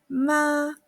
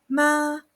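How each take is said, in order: The two takes are said the same way.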